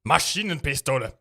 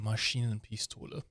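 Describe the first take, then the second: First: It is said harshly and angrily. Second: It is said softly and romantically. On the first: "Or you can be very angry" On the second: "You can be very romantic with German"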